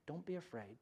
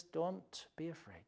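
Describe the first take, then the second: First: Repeated even softer, almost hushed; softer echo. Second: Much softer, gentle comfort; tender reassurance. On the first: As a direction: let the repeat fade gently. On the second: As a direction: hush a frightened child. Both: Retold or imitated. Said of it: "and God says".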